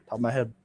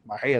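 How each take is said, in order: First: Said in the usual way. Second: "head" drawn out oddly; odd pronunciation. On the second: Shown as a demonstration. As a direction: mimic your own odd, stretched "head". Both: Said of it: "I don't know why I said it like that".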